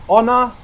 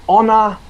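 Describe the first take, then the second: Both takes have the same delivery.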